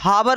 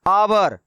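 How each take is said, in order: First: The word begins with an h sound. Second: The word begins with a vowel sound. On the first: The speaker calls it wrong. "ये हावर लिखा हुआ नहीं है" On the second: The speaker calls it right. "इनको हम लोग क्या पढ़ते हैं"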